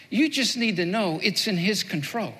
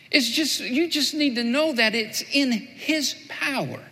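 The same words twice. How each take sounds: First: Said in the usual way. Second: Slower emphatic restatement. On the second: Shown as a demonstration. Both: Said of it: "Here's what Jesus is saying".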